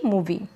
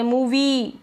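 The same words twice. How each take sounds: First: The final vowel is kept short. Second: The final vowel is drawn out long. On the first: The speaker calls it right. "छोटी ई के रूप में आई को पढ़ रहे हैं" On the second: The speaker calls it wrong. "मूवी लंबा नहीं बोल रहे"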